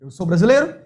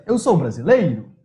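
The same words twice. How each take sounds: First: "Eu sou brasileiro?" rising at the end like a question; question rise. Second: "Eu sou brasileiro." falling flat at the end as a statement. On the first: Teacher showing a question by tune alone. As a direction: lift "brasileiro" up at the end to ask. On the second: Teacher contrasting a plain statement with the question. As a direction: let "sou" carry it and drop the end. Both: Shown as a demonstration. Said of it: "a gente só coloca a entonação".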